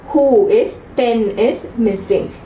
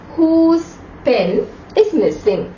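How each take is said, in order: First: The first word is split into two syllables. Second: The first word is said as one syllable. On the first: The speaker calls it wrong. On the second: The speaker calls it right.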